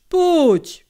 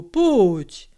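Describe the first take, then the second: First: "pójdź" pitched much higher and louder, pleading; kindly coaxing. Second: Kindly coaxing. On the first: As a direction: coax harder, lifting the voice. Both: A narrator's reading. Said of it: "jął dobrotliwie przemawiać".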